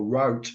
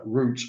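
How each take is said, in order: First: It is said with an American pronunciation. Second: It is said with a British pronunciation.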